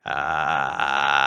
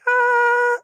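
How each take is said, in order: First: Low, sustained gravelly "ah"; vocal fry. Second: Very high, sustained falsetto note. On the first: Singer demonstrating vocal fry, low gravelly bubbling. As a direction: bubble a long fry in the back of the throat. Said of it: "when you're doing a vocal fry". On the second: Singer showing what falsetto is, powerless high falsetto. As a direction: hold a high "Ah" with no power behind it. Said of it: "falsetto is like". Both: Shown as a demonstration.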